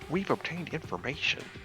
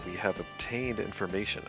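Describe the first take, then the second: First: It is read in an imitation of another voice. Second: It is read in the speaker's ordinary voice.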